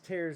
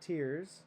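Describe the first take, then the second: First: The vowel rhymes with bears. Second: The vowel rhymes with beers. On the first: It means rips in the paper. The speaker calls it right. "It's tears" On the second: It means crying. The speaker calls it wrong. "not tears. There's no crying in math"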